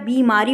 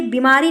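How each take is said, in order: First: बीमारी with a long first "ee"; correct pronunciation. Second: बीमारी with a short first i; wrong pronunciation. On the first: Teacher gives the right word, with long first i. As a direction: lengthen the "bee" of बीमारी. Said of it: "बा में बड़ी ई की मात्रा". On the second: Teacher shows the misspelling, with short first i. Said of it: "बीमारी नहीं होता है". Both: Shown as a demonstration.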